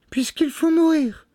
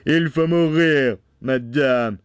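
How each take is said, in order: First: Very high, pleading woman's voice; tearful wife. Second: Loud, raised husband voice; stern Bluebeard. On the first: Condemned wife answering her husband, high and pleading. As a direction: plead in a thin falsetto. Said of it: "des yeux baignés de larmes". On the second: Bluebeard condemning his wife, stern and loud. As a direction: pronounce the death sentence with force. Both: A narrator's reading.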